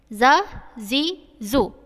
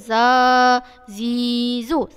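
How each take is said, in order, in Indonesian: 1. Vokalnya diucapkan pendek. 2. Vokalnya diucapkan panjang. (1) "bunyi nada harakat yang pendek" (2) "jangan sebut ... Salah"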